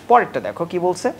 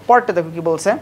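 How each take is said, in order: No difference in how they are said.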